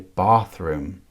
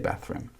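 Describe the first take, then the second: First: Bathroom is said in a Southern English accent. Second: Bathroom is said in a non-Southern English accent. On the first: This is how people in Southern England say it. "Southern England, they say bathroom" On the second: This is how the speaker personally says it. "I say bathroom"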